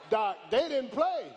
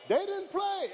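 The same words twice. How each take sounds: First: Loud, punchy declaration; preacher shouting the point; shouted. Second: Soaring much higher repeat; preacher's climbing echo of the point; high shout. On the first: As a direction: hit it hard and drop at the end. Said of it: "preacher repeats line, first take". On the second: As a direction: lift the repeat way up high and let it fall. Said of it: "preacher repeats line, second take". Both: Real, not acted.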